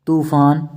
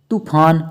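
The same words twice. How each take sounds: First: तूफान with a long "too". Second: तूफान with a quick "tu"; short u. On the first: Teacher correcting students, long oo in तूफान. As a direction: stretch the first vowel of तूफान. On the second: Teacher showing the error, short u in तूफान. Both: Shown as a demonstration. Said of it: "छोटे ऊ और बड़े ऊ".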